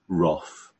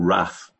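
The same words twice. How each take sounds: First: It is said with a standard, non-local pronunciation. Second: It is said with a local regional pronunciation.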